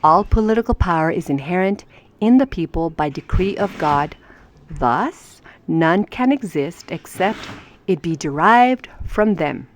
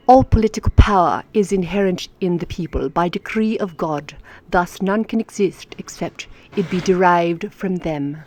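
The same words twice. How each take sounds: First: Said in the usual way. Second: Card read in a lightly put-on English accent. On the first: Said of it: "English accent". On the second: Shown as a demonstration. Teacher rereads the card to viewers, English accent. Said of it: "That's my English accent".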